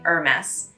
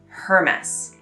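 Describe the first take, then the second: First: It starts with no H, like 'er'. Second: It starts with a sounded H, like 'her'. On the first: The speaker calls it right. "if you cut the H off" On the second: The speaker calls it wrong. "often pronounced by English speakers like Hermes"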